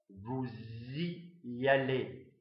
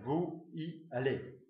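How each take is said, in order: First: A z sound links vous to y. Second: No z sound links vous to y. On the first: The speaker calls it right. "la liaison est obligatoire" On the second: The speaker calls it wrong. "On ne peut pas dire"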